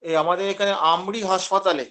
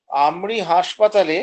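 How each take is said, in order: First: Said in the usual way. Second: হাসপাতালে drawn out slowly, falling at the end; slow emphatic repeat. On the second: Shown as a demonstration. Teacher to students, slowly stressing আমরি হাসপাতালে.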